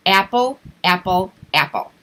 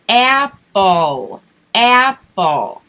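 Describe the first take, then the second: First: Quick repetition. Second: "apple, apple" said slowly and louder, each one spaced; slow drawn out. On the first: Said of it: "have them repeat it a couple times quickly". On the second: Teacher contrasting with a quick drill, slow and loud. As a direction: stretch the word out instead of rushing it. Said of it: "Rather than". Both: Shown as a demonstration.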